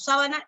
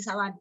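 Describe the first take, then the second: First: "sábana" with its first syllable stressed. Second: "sabana" with its middle syllable stressed. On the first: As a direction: hit SÁ in "sábana". (acento en SÁ de «sábana») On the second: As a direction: hit BA in "sabana". (acento en BA de «sabana») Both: Shown as a demonstration. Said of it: "Tienen diferentes significados".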